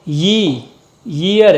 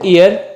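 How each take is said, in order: First: The word begins with a y sound. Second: The word begins with a plain vowel sound. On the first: The speaker calls it right. "ये है अ यी ईयर" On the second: The speaker calls it wrong. "If you pronounce it ईयर तो आपको एन बोलना पड़ेगा जो कि गलत"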